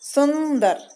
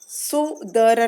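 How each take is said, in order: First: The word has an n sound before d. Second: The word has no nasal sound before d. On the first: The speaker calls it right. "ये न का ध्वनि दे रहा है" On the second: The speaker calls it wrong. "सुदर नहीं"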